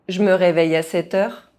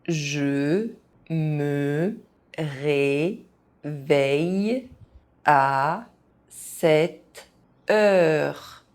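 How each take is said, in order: First: It is said fast, with some sounds dropped. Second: It is said very slowly, syllable by syllable. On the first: This is how native speakers say it. "fast, as a native speaker would do" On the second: Each syllable can be followed. "very slowly"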